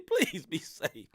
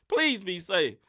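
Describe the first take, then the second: First: Slow, soft and sincere; slow soft plea. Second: Said in the usual way. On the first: Shown as a demonstration. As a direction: ease off and plead gently.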